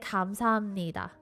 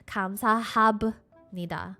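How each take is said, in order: First: The B melts into the N, sounding like M. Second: A clear B sound is heard before the N. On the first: The speaker calls it right. "this B sound almost kind of just melts into the N. And it almost sounds like an M" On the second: The speaker calls it wrong. "So you wouldn't say"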